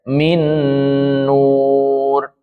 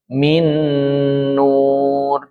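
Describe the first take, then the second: The two takes are said the same way.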